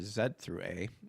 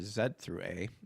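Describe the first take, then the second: First: The letters are said in a Japanese style. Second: The letters are said in a Japanese style.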